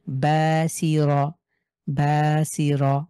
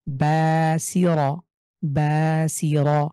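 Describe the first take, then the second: First: বাসিরা with a thin, Bengali-style র; slow বাসিরা, র not thickened; light r. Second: Slow বাসিরা with thick, full-mouthed র; tongue to the palate on the র of বাসিরা; heavy r. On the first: Teacher demonstrates the wrong, light র. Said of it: "এটাকে যদি আমি মোটা না করি তাহলে কেমন শোনাবে". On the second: Teacher recites বাসিরা with heavy র. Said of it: "এই রটাকে যে উচ্চারণ করছি আমি". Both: Shown as a demonstration.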